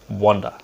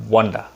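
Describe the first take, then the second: First: It has the native-speaker pronunciation. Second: The same.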